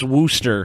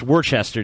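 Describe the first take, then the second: First: The name is shortened to two syllables, Wooster. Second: The name is said out in full as spelled. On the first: The speaker calls it wrong. "It's not pronounced Wooster" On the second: The speaker calls it right. "That's how it's fucking written"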